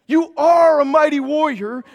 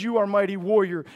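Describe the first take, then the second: First: A soaring shout of the line; calling the congregation mighty warriors; loud proclamation. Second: Quoting God's words in passing; quick quoted aside. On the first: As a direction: proclaim You are a mighty warrior with full force. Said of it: "if he says, "You are a mighty warrior". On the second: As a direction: toss off You are a mighty warrior briskly. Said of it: "if he says". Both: Shown as a demonstration.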